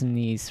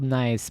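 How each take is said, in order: First: The vowel sounds like 'ee', as in French. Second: The vowel sounds like 'eye', as in English. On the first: This is the actual name of the city. "I think that's Nice, right? I think I did say that right" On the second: This is how the spelling reads in English. "I know it's spelled nice"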